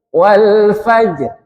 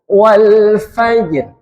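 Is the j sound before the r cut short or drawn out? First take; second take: cut short; cut short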